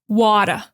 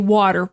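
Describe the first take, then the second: First: It is said in a Boston accent. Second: It is said in a standard American accent. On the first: "In Boston, they're going to open it up" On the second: "I say water. Water is standard American English"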